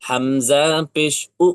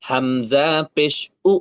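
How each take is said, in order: Both takes have the same delivery.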